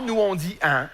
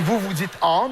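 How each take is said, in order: First: "un" with a fronted Québécois nasal a. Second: "en" as a clean Parisian nasal ah; French "en". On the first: Showing a Parisian the Québec vowel, fronted nasal "un". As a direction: flatten "un" forward, towards nasal eh. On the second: Showing a Parisian his own vowel, "en" as nasal ah. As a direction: say "en" the France way, open nasal. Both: Shown as a demonstration.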